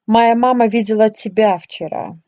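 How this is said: The word тебя carries the main stress. The point is who was seen. "Changing your intonation, you also can underline that the person your mom saw was him"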